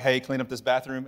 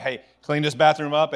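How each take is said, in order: First: Said in the usual way. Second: Louder, with a little teeth on it; a little firmer. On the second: Shown as a demonstration. Parent repeating the bathroom order to kids, firmer and louder. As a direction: raise the tone a notch. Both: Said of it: "you raise your tone just a little".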